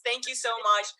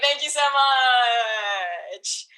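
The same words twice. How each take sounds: First: Said in the usual way. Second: Slow breathy whisper of thanks; hushed, stretched-out thank you. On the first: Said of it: "host thanks plainly". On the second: Real, not acted. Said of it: "host whispers thanks".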